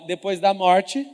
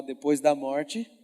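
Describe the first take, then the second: First: Slow, loud, drawn-out line for the crowd to echo; slow call to repeat. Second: Slower, lower lead line; slow repeat prompt. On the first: Preacher prompts the congregation in a slow chant. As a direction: lay it out slowly for them to repeat. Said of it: "Fala assim, ó". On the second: Preacher has the congregation say it aloud. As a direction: say it slowly so they follow. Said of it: "Fala assim com a sua boca". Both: Shown as a demonstration.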